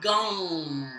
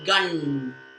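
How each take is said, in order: First: The word ends in a nasalized vowel. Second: The word ends in a closed nasal consonant. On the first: "it's like the sound in croissant" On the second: "instead of"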